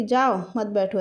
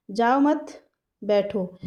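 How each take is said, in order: First: "जाओ" set apart, then "मत बैठो" together; group मत with बैठो, not with जाओ; break after जाओ. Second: "जाओ मत" run together, a break, then "बैठो"; pause after मत. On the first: Listener mishears it as go, don't sit, break after जाओ. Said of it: "वो समझ रहा है कि". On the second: Speaker means don't go but sit, pause after मत. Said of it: "मतलब वो कह रहा है". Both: Shown as a demonstration.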